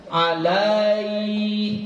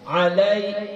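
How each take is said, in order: First: The vowel before the glide is drawn out. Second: The vowel before the glide is short. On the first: The speaker calls it wrong. "jangan dipanjangkan huruf yang berbaris fathahnya" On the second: The speaker calls it right. "harus mengalir, lembut aja"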